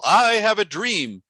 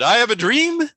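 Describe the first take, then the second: First: The voice falls at the end. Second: The voice stays up at the end. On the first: The speaker says it with authority. The speaker calls it right. "because it comes down um, at the end" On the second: The phrase would not be memorable. The speaker calls it wrong. "if his voice had stayed up at the end"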